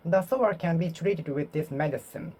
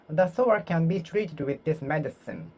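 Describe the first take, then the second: No difference in how they are said.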